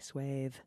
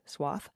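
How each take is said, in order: First: The vowel sounds like the one in bathe. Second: The vowel sounds like the one in moth. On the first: This is the original British way of saying it. The speaker calls it right. "the original not only sounds nicer" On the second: This is the American way of saying it. The speaker calls it wrong. "The American interpretation sounds dry"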